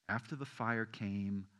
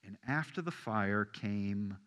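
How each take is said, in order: First: Slow, soft unvoiced whisper. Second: Said in the usual way. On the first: Shown as a demonstration. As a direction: make the church lean in to hear it. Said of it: "you don't hear a whisper". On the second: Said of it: "Hear that?".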